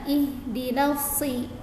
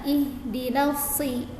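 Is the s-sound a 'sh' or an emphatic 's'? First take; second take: emphatic s; emphatic s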